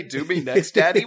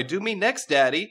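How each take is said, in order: First: High, loud repeat breaking into a laugh; incredulous quoting. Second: High, loud come-on with a rising end; flirty swoon. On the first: Retold or imitated. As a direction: echo it in disbelief. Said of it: "Did that guy just say". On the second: Acted. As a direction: tease it out breathlessly eager. Lusty court member.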